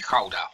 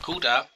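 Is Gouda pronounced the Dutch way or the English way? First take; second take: Dutch; English. First: It is pronounced the native Dutch way. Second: It is pronounced the ordinary English way.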